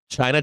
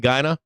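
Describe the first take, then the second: First: The word begins with a plain 'ch' sound. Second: The word begins with a soft 'g/j' sound.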